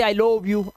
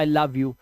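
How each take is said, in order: First: Love said "lohv", with a long o; wrong pronunciation. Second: Love said "luv", short vowel, lower pitch; correct pronunciation. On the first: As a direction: show the mistaken love, rhyming with "stove". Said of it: "यहाँ पे लोव तो नहीं बोलते". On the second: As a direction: model love with an "uh" sound. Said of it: "आप बोलते हो". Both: Shown as a demonstration.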